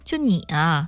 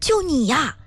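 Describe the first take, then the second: First: It is said in a scornful tone. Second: It is said in an excited tone.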